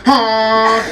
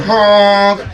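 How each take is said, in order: First: Short loud mock horn honk; torpedo honk. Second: Loud honk, pitched up; torpedo honk. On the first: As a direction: blast it like a car horn. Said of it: "I invent this torpedo honk". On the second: Retold or imitated. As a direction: honk it like a horn at a cutter. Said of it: "and I'm going".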